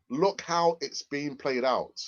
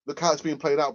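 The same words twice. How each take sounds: First: Slow, drawn-out repeat; slow emphasis. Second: Said in the usual way. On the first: Real, not acted. Streamer making the point to Brian, slow and emphatic. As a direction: stretch the words out slowly to sink in.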